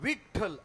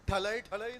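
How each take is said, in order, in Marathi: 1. संपूर्ण शब्द पहिल्या अक्षरावर जोर देऊन म्हटला जातो. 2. शब्द छोटा करून अस्पष्टपणे म्हटला जातो, त्याची सुरुवात गळते. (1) "विठ्ठल असं म्हणायचं असतं" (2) "ठलय ठलय नाही. सगळा अपभ्रंश करून ठेवलाय"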